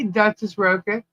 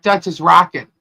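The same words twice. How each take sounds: First: Rocket said with a long o, ROH-ket; first pronunciation. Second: Rocket said with a short o, ROCK-it; second pronunciation. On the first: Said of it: "Am I even saying that right?". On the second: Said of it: "Or is it Duchess Rocket?". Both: Shown as a demonstration.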